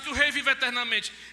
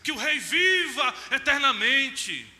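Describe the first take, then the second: First: It is said in a plain, flat tone. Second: It is said in a gushing, flattering exclamatory tone. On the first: The speaker calls it wrong. "não é assim" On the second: The speaker calls it right. "É aquela coisa bajuladora"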